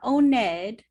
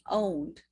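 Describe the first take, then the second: First: The -ed ending is said as a separate syllable. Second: The -ed ending is not said as a separate syllable. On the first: The speaker calls it wrong. "it's not owned" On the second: The speaker calls it right. "Be careful again with the E D"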